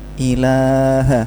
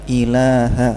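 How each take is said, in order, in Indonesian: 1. Vokalnya terlalu panjang. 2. Vokalnya dibuat pendek. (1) "yang ilaha ini kepanjangan" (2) "harusnya ilaha, singkat saja"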